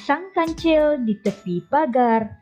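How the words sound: It is read with a rhythmic, melodic intonation. The speaker calls it right. "dibaca mengikut irama ataupun intonasi"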